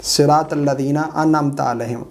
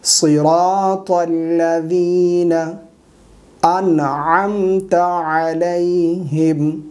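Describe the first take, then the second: First: Quick spoken "सिरातल लज़ीना अनअमत अलैहिम"; d for dh in "लज़ीना", no ayn in "अनअमत"; common mistake. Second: Slow chanted "सिरातल लज़ीना अनअमत अलैहिम"; correct recitation. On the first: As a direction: say "अनअमत" as "annamta", unchanted. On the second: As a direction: sound the ayn in "अनअमत". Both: Shown as a demonstration. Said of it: "ये गलत है".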